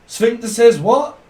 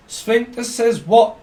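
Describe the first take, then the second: First: Mock demand. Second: Sphincter says what, drawn out slow with WHAT rising high; a slow teasing "sphincter says what"; slow teasing repeat. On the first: Playful call-and-response joke. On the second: Pretend. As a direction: lean on what and let it climb. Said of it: "repeats the joke slower".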